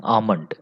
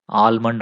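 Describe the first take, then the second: First: ఆమండ్ with no L sound; long open vowel straight into M in ఆమండ్; silent L. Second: ఆల్మండ్ with the L pronounced; L sounded. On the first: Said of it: "ఎల్ silent అనమాట". (ఆమండ్, ఎల్ పలకకుండా) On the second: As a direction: say ఆల్మండ్, voicing the L before M. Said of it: "దీన్ని ఆల్మండ్ అనకూడదు". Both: Shown as a demonstration.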